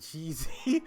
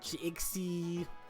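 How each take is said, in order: First: The middle consonant is pronounced as z. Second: The middle consonant is pronounced as ks.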